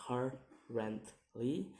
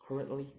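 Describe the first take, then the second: First: "currently" slowly in three beats, rising at the end; syllable by syllable. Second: Said in the usual way. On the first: Shown as a demonstration. Teacher demonstrating syllables, "currently" slow and split. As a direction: break "currently" apart and lift the last. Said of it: "three syllables to say". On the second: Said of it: "in ly".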